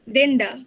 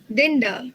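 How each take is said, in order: Both takes have the same delivery.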